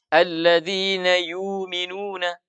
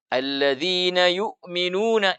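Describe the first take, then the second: First: The glottal stop becomes a long vowel. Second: A glottal stop is kept after yu. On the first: "Dibaca apa?" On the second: "Dia tidak baca begitu"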